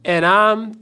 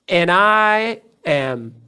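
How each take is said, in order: First: I and am are joined into one syllable. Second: I and am are said as separate words.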